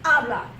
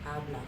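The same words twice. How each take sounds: First: The word is shouted loudly. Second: The word is said quietly. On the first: "And then I would shout it at the person" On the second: "I could be quiet about it and just say"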